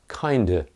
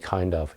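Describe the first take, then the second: First: The phrase is run together without the v. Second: The phrase is said in full, with the v. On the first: The speaker calls it right. "it's kinda" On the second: The speaker calls it wrong. "You never say kind of"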